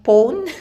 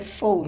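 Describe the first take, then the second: First: The word begins with a P sound. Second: The word begins with an F sound. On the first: The speaker calls it wrong. "Or sometimes, can you hand me over my phone?" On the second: The speaker calls it right. "But it's actually the phone"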